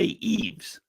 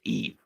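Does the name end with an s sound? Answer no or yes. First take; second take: yes; no. First: The name ends with an s sound. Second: The name ends without an s sound. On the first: The speaker calls it wrong. "you don't say Eves" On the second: The speaker calls it right. "It's just Eve"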